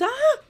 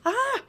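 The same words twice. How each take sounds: First: High, louder yelp of fright, copying his; startled yell back. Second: Sudden high yelp of fright; startled yell. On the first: Retelling how she yelled back at her husband, high startled yelp. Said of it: "eu fui na mesma entonação". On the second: Retelling her ex-husband's startled yelp, high and sudden. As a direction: yelp like a man caught off guard. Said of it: "Ele gritou, fez". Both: Retold or imitated.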